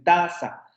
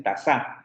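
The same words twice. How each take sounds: First: "taza" as TA-za, slow first syllable, falling end; stress on first syllable. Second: "taza" stressed on the last syllable, ta-ZA; wrong final stress. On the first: Teacher correcting to what speakers say, "taza" as TA-za. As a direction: lean long on the TA of "taza". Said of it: "dicen taza". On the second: Teacher showing what speakers don't say, "taza" as ta-ZA. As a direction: shift the weight of "taza" onto za. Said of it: "no dicen taza". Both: Shown as a demonstration.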